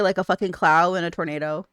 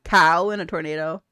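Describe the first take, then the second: First: "cloud" slurred into "clow" for cow; "cloud" said as a clow-like slip; slip of the tongue. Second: "Cow" with a clean K and no L; "Cow" said as kow, not clow; corrected word. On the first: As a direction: trip on "cloud", adding an L to cow. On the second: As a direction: fix the slip, saying "Cow" clearly. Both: Real, not acted. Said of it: "I can't talk".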